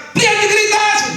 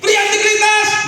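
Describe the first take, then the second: First: Chanted call. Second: Shouted call. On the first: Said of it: "Coba sekali lagi". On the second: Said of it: "Berdiri, ayo kita". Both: Real, not acted.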